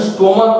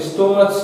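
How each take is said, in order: First: স্টোমাক ending in a hard "k" sound; স্টোমাক, closing on ক instead of চ. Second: স্টোমাচ, closing on চ instead of a k; wrong ch ending. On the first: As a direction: say স্টোমাক with the final ch as k. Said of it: "এর উচ্চারণ স্টোমাক হচ্ছে". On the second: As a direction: say স্টোমাচ with the final ch as in "church". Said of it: "স্টোমাচ না". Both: Shown as a demonstration.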